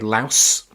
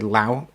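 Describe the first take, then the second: First: The word ends with an s sound. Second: The word ends without an s sound. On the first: "Some say Laos" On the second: "some say Lao. I say Lao"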